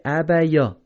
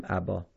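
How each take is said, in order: First: ابیا with the ی sounded; wrong reading. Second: ابا read abā, lower and softer; correct reading. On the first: Teacher showing students what to avoid. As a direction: demonstrate the mistaken ابیا, louder. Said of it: "ابیا غلط". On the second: Teacher giving students the right form. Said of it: "باید بخونیم". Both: Shown as a demonstration.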